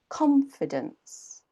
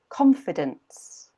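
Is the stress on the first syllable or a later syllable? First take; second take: first; first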